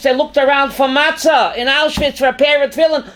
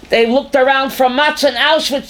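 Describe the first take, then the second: First: Raised, higher repeat with a punch on pair; impassioned outcry. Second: Said in the usual way. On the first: Acted. Teacher to class on Auschwitz, impassioned raised repeat. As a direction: cry it out, stressing pair.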